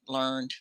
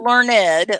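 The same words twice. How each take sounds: First: The word is said as one syllable. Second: The word is said as two syllables. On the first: Something was studied or found out. "I learned one syllable" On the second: Someone is very smart. "Learned is something else"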